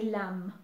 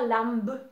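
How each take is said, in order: First: Lamb with a silent b, ending on m; correct pronunciation. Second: Lambe with the final b sounded; wrong pronunciation. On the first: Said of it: "We say lamb". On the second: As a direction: lambe said with a hard b at the end. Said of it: "on ne dit pas lambe". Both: Shown as a demonstration.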